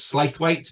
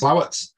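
First: The name is said letter by letter, Slaith-wait. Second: The name is said in two short syllables, Slow-it. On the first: The speaker calls it wrong. "looks like it's pronounced as Slaithwaite" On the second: The speaker calls it right. "but it's actually pronounced Slowart"

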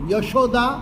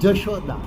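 First: The word begins with a 'y' sound. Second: The word begins with a 'j' sound. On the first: This is the standard form. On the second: This is the dialect form.

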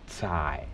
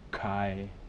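First: The word begins with a ts sound. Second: The word begins with a hard k sound. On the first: The speaker calls it right. "There's no that friction. You simply say tsai" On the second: The speaker calls it wrong. "you don't say like the hard, you know, you don't say kai"

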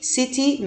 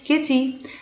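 First: The word begins with an s sound. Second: The word begins with a k sound. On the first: The speaker calls it right. "سيتي سيتي مدينة" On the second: The speaker calls it wrong. "ما قلتش كيتي"

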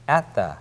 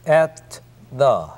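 First: The t is held, not released. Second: The t is fully released before the. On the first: The speaker calls it right. "at의 t를 파헤치지 않기 때문에" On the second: The speaker calls it wrong. "at the가 아닙니다"

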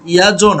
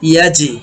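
First: The j is released with a rounded 'o' vowel. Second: The j is released with a sound going downward. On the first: The speaker calls it wrong. "ইয়াজো না" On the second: The speaker calls it right. "ইয়াজে আওয়াজটা নিচের দিকে যাবে"

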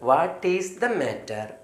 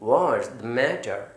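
First: 'What is' is said as two separate words. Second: 'What is' is joined into one word. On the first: "വാട്ട് ഈസ് the matter പറയുമ്പോൾ" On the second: "ഈ വാട്ട് ഈസിനെ ഒന്നിച്ചാക്കി"

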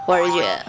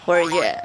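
First: The words run together and 'jiu' disappears. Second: The same.

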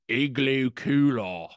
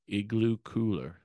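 First: It is said with an Australian accent. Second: It is said without an Australian accent. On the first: "he had an Australian accent" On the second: "he would start off and he'd be like"

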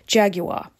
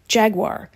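First: Jaguar is said with a British pronunciation. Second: Jaguar is said with an American pronunciation. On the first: "to say it the British way" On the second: "Like most Americans, I always said Jaguar"

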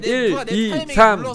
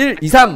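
First: The numbers are counted at an even, steady pace. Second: The three comes too quickly after the two. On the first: The speaker calls it right. "이렇게 가야 되는데" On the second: The speaker calls it wrong. "지금 계속 3번이 빨라"

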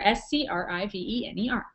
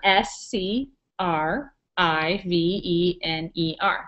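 First: The letters are spelled out quickly. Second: The letters are spelled out slowly.

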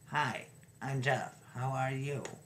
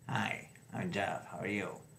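First: The speech sounds clear, the improved way of talking. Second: The speech sounds impaired, the old way of talking.

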